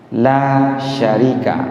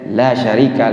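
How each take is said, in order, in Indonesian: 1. Vokal pada 'la' panjang. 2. Vokal pada 'la' pendek. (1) "Makanya panjang" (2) "kita baca pendek"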